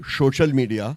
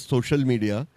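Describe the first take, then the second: First: The first word is said as 'shosha'. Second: The first word is said as 'social'. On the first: The speaker calls it right. "call it social media are right, because it's all about a lot of shosha" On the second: The speaker calls it wrong. "do not pronounce it as social media"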